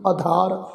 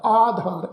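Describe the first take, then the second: First: ਆਧਾਰ said with a plain d; the mistaken aadaar reading; ਆਧਾਰ without aspiration; wrong pronunciation. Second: ਆਧਾਰ with aspirated dh; ਆਧਾਰ, long aa and aspirated dh; correct pronunciation. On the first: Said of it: "ਇਸ ਢੰਗ ਨਾਲ ਪਾਠ ਉਚਾਰਨ ਨਹੀਂ ਕਰਨਾ". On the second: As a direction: say aadhaar with a breathy dh. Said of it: "ਐੜੇ ਨੂੰ ਕੰਨਾ ਲੱਗਾ ਹੋਇਆ". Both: Shown as a demonstration.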